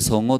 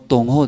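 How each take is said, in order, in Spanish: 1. El nombre empieza con un sonido S. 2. El nombre empieza con un sonido T. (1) "En vez de Songo" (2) "el bebé no puede pronunciar bien"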